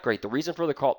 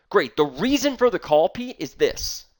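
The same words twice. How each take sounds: First: "The reason for the call" dropping to a soft flat close; flat closed ending. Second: "The reason for the call" lifted higher and held open before "Pete, is this."; lifted, open phrasing. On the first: Trainer shows the opener that gets him hung up on, flat and final. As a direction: let "call" fall shut as if the sentence is finished. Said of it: "It's not". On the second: Trainer shows Pete the right opener, lifted and open. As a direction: keep the phrase hanging up so Pete waits for more. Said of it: "that's the way I'm saying it". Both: Shown as a demonstration.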